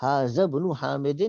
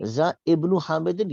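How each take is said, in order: First: ہاذا ابن حامد read with a full ہا and ابن linked on. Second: ذا ابن حامد read slowly and higher with ذا joined to ابن; acceptable reading. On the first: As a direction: say ہاذا fully, as Arabs read it. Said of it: "صحیح طریقہ وہ عربوں کا پڑھنے کا". (ہاذا ابن حامد عربوں کی طرح) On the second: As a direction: join ذا to ابن. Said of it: "زال کو با کے ساتھ ملائیں گے". (ذا ابن حامد ملا کر) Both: Shown as a demonstration.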